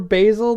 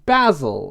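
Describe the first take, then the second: First: It is said with a non-British pronunciation. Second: It is said with a British pronunciation. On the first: The speaker calls it wrong. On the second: The speaker calls it right.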